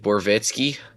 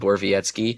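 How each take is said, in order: First: The name is said with a Southern twang. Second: The name is said in a neutral accent. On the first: The speaker calls it wrong. "I have friends that would be like" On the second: The speaker calls it right. "if you said Borvietsky"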